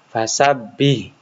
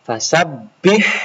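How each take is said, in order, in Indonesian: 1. H di akhir itu ringan. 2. H di akhir itu lebih dalam, dari tenggorokan. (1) "Jangan fasabbih. Itu tidak boleh, keliru" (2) "Yang benar fasabbih"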